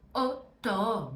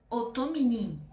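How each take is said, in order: First: The vowels are said together, like 'oh'. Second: The vowels are said separately, like 'ah-oo'. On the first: The speaker calls it right. "A com U vira O" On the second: The speaker calls it wrong. "em vez de eu falar"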